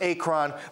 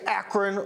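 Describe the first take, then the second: First: It is said unlike the American city name. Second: It is said like the American city name. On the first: The speaker calls it right. "but I think it's pronounced Akron" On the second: The speaker calls it wrong. "I want to say Akron, like Akron, Ohio"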